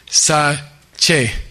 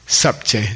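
First: There is no p sound before che. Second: A p sound is heard before che. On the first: It follows the usual rule of silent prefix letters. The speaker calls it wrong. "It should be pronounced sa-che, because you don't normally pronounce prefix letters" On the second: It marks the speaker as good at Tibetan. The speaker calls it right. "You pronounce the B. If you're cool, you say sap-che"

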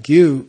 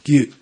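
First: The vowel is neither clipped nor lengthened. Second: The vowel is clipped with a sudden throat closure. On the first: It means a cause. "without either cutting or lengthening" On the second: It means a lineage or stream. "one is cut short"

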